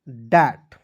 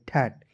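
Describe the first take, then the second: First: The first consonant is a voiced, d-like sound. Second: The first consonant is a voiceless, t-like sound. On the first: The speaker calls it right. "टी एच का प्रयोग द के रूप में करना है।" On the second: The speaker calls it wrong. "जो कि क्या है दोस्तों गलत तरीका है।"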